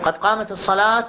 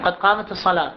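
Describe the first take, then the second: No difference in how they are said.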